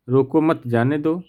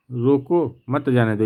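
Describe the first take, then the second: First: "रोको मत" run together, brief break, then "जाने दो"; group it as "रोको मत", then "जाने दो"; pause after मत. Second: "रोको" set apart, then "मत जाने दो" together; pause after रोको. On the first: Teacher reading out a punctuation example, pause after मत. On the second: Teacher contrasting punctuation for students, pause after रोको. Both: Shown as a demonstration. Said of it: "यहाँ अर्थ अलग निकल रहा है".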